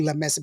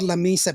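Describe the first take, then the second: First: La Mesa with MESA said "MEH-sah"; Spanish-style La Mesa, short e in Mesa; original Spanish pronunciation. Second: La Mesa with MESA said "MEE-suh"; English-style La Mesa, long ee in Mesa; Anglicized La Mesa. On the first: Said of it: "it's originally La Mesa". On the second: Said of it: "that's why it's called La Mesa". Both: Shown as a demonstration.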